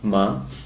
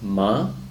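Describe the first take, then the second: The two takes are said the same way.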